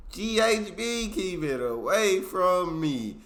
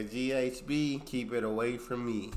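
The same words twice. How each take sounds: First: Louder, higher, slower warning, "G H B" punched hard; emphatic warning. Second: Said in the usual way. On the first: Shown as a demonstration. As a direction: say it like a stern warning to everyone.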